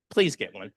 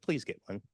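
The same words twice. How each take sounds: First: "Please get one" repeated louder, leaning on "Please"; emphatic repeat. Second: Said in the usual way. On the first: Shown as a demonstration. Urging the audience to see a therapist, louder and more insistent. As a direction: press the plea harder on "Please".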